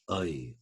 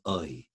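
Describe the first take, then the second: First: It is said in reconstructed Elizabethan-era pronunciation. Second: It is said in reconstructed Elizabethan-era pronunciation.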